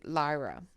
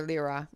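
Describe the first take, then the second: First: First syllable of "Lyra" rhymes with "lie"; Lyra as LIE-ruh. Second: First syllable of "Lyra" rhymes with "leer". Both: Shown as a demonstration. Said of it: "whichever way you want to pronounce it".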